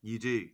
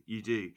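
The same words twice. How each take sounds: The two takes are said the same way.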